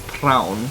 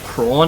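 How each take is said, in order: First: The vowel sounds like 'ow' as in 'brown'. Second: The vowel sounds like 'aw' as in 'lawn'. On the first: "My dad also pronounced prawn as prown" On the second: "My dad also pronounced prawn as prown"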